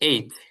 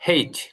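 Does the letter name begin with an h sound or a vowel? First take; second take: vowel; h sound. First: The letter name begins with a vowel sound. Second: The letter name begins with an h sound. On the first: "আমরা জানি এইচ" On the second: "হ দিয়ে"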